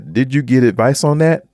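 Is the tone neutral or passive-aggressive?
neutral. It is asked in a neutral, plain tone.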